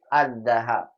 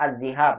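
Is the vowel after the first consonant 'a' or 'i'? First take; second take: a; i. First: The first vowel of the word is a. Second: The first vowel of the word is i. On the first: The speaker calls it right. "Yang betul az-zahab" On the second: The speaker calls it wrong. "Memang sering ada salah bilangnya az-zihab"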